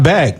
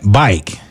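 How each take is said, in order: First: The word has a plain short 'a' vowel. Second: The vowel glides so it sounds like 'bike'. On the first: The speaker calls it wrong. "Not back" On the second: The speaker calls it right. "If you from Tampa, huh? You don't say"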